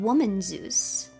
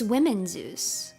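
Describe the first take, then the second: First: The first part sounds like singular 'woman'. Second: The first part sounds like plural 'women'. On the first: The speaker calls it wrong. "I've been saying Woman Zeus" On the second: The speaker calls it right. "It's Women Zeus"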